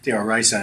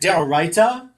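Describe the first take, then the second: First: It is said in an Ashkenazi accent, ending 'sa'. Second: It is said in a non-Ashkenazi accent, ending 'ta'.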